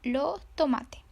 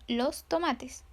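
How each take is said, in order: First: The final s sounds are dropped, Chilean style. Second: The final s sounds are pronounced, Mexican style.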